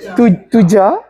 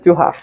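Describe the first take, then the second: First: The middle consonant is an English j sound. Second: The middle consonant is an h sound.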